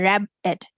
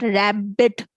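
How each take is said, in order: First: The b sound is said only once. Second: The b sound is held and said twice. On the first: The speaker calls it right. "but we say rabbit" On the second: The speaker calls it wrong. "It's not rabbit. B दोबारा नहीं बोलते"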